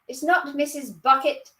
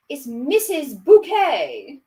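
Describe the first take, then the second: First: "Bucket" said BUK-it, pitched higher; correcting "Bucket". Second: "Bouquet" drawn out as boo-KAY, high and loud; genteel "Bouquet". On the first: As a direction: primly reject "Bucket" as BUK-it. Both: Acted. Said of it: "she pronounced it".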